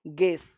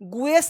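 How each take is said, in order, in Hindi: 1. g सीधे स्वर में चला जाता है। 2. g के बाद w जैसी ग्लाइड आती है। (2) "गुएस नहीं बोलते"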